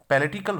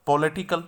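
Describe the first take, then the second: First: पैलेटिकल with "pe" in place of "po"; correct pronunciation. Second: पॉलिटिकल with a full "po" first syllable; common mispronunciation. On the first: Teacher shows students the right version, pronouncing पैलेटिकल with reduced first vowel. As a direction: say पैलेटिकल as "pe-LE-ti-kal". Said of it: "सही pronunciation देख लेते हैं". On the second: Teacher shows students the common mistake, mispronouncing पॉलिटिकल with full "po". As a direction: say पॉलिटिकल as "PO-le-ti-kal". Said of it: "ऐसे नहीं होना चाहिए". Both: Shown as a demonstration.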